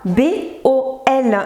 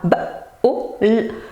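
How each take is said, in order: First: Each letter is said as its alphabet name. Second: Each letter is said as its bare sound. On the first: The speaker calls it wrong. "Ne dites surtout pas" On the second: The speaker calls it right. "Dire le son des lettres"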